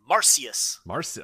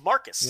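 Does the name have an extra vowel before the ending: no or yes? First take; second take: yes; no. First: The name has an extra vowel sound before the ending. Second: The name has no extra vowel before the ending. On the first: The speaker calls it wrong. "I've been pronouncing it wrong because of that weird I in his name" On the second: The speaker calls it right. "it's just Marcus"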